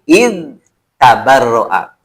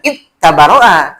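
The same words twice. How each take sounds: First: The n sound is pronounced clearly and separately. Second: The n sound merges into the next consonant. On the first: The speaker calls it right. "tapi in tabarro'a ... itu dibaca jelas" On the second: The speaker calls it wrong. "dibacanya tidak in tabarro'a"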